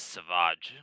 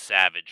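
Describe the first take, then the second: First: The name is said differently from the everyday word. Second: The name sounds like the everyday English word. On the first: The speaker calls it right. "They pronounce this Savage" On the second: The speaker calls it wrong. "it's not pronounced Savage right here"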